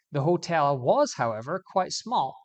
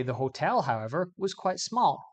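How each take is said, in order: First: "was" pushed louder with a rise; "was" loud and rising, then "however, quite small"; stress on was. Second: "hotel" lifted with a rise before the pause; "hotel" stressed and rising, "however" set apart. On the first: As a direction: hit "was" before the pause. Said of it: "We're emphasizing the verb was". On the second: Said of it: "think about the word hotel". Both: Shown as a demonstration.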